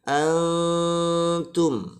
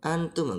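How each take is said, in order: First: The n is held softly through the nose. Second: The n is rushed and cut short. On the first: The speaker calls it right. "juga harus samar" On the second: The speaker calls it wrong. "nggak boleh kesusu antum"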